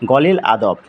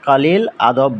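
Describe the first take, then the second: First: The first word begins with a 'g' sound. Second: The first word begins with a 'k' sound. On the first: "সৌদিরা বিশেষ করে কফ এর উচ্চারণ ওরা গইনের মতো করে" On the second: "কলিল না বলে"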